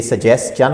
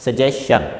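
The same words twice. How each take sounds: First: सजेस्चन with an s and then a ch sound; correct pronunciation. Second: सजेशन with a plain sh ending, no ch; wrong pronunciation. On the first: Shown as a demonstration. Teacher showing the correct सजेस्चन with s then ch. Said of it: "If S exist before T I O N". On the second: Retold or imitated. Teacher echoing the wrong सजेशन with sh. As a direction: model the mistake, सजेशन with sh. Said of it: "ये तीनों wrong pronunciation है".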